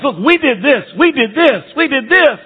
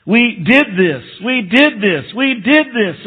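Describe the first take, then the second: First: High mocking boast, each we did this pushed up; a mock boastful crowd, well higher; self-congratulating boasters. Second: Did leaned on, pitch climbing each time; we did this, did punched and rising; boastful repeat stressing did. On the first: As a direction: mimic proud churchgoers listing their deeds. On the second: Retold or imitated. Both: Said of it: "They're focused on themselves".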